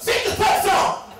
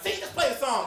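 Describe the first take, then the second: First: High, loud yelled interruption; impatient yell. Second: Higher, milder echo of the demand; girl relaying order. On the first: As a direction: yell over the speaker to hurry them. Cuts him off a second time. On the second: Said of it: "and the girl's like". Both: Retold or imitated.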